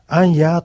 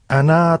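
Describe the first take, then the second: First: The word is said as 'anya', with a y-sound. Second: The word is said as 'ana', without a y-sound. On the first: The speaker calls it wrong. "とはなりません" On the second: The speaker calls it right. "実際の発音では"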